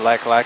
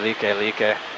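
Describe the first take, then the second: First: Each word sounds like the English word like. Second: Each word has two syllables, like lee-keh. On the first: This is how an outsider reads the name. The speaker calls it wrong. "to a haole like me looks a lot more like the Like Like Highway" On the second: This is how someone who studied Hawaiian says it. The speaker calls it right. "she'd know it as the Like Like"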